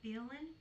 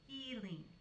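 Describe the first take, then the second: First: The first vowel is short, like 'filling'. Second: The first vowel is long, like 'feel'. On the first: The speaker calls it wrong. "the way I say it is like what you would put into a cavity" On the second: The speaker calls it right. "the way you're supposed to say it is feeling"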